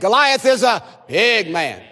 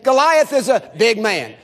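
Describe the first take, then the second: First: The word big is strongly emphasized. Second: The word big gets no special emphasis. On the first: "Emphasize the word big" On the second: "Say that with me"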